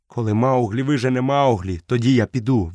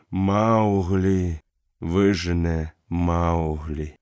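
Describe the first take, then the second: First: Put-on boy stubbornly repeating the wolf's words; defiant retort. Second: Lightly voiced old wolf answering slowly; calm dying wolf. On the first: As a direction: throw his words back at him. Mowgli throws words back. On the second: Akela answers calmly.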